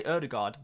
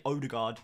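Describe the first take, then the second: First: "Ødegaard" with a rounded front Ø, like "UR-de-gard"; "Ødegaard" with a Norwegian Ø, not "Oh". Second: "Odegaard" with a plain English "oh" start, "OH-de-gard"; anglicised "Odegaard", first vowel "oh"; "Odegaard" read as English would. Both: Shown as a demonstration. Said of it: "I'll say Ødegaard rather than Odegaard".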